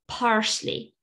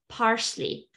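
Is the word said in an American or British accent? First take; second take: American; American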